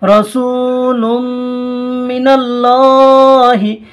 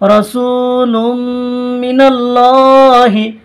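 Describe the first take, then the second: No difference in how they are said.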